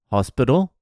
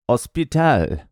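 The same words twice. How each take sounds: First: Said in the usual way. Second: "hospital" as os-pi-TAL, no H, stress at the end; Spanish, silent H. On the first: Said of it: "You don't pronounce H". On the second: Shown as a demonstration. Comedian demoing Spanish rule, silent H. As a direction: drop the H in "hospital". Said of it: "You don't pronounce H in Spanish".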